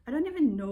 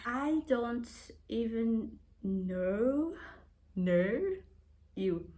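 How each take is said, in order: First: Said in the usual way. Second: Drawn-out, slow Australian accent; exaggerated Australian accent. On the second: Shown as a demonstration. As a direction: stretch "know" in a mock Australian accent. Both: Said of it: "Most people say I have an Australian accent".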